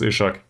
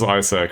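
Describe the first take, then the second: First: The name is said with a 'sh' sound. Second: The name is said with an 's' sound. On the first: It follows the Swedish way of saying the name. The speaker calls it wrong. "not to pronounce this Ishak, given the history in Sweden" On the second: It follows the English biblical way of saying the name. The speaker calls it right. "so this is Isaac, right? Just like in the binding"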